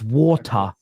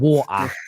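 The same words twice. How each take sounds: First: It is said in a posh London accent. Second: It is said in a Cockney accent. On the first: This is the correction. The speaker calls it right. "I get corrected by my daughter" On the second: This is how the father says it. The speaker calls it wrong. "not water"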